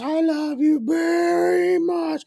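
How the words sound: It sounds dark and menacing.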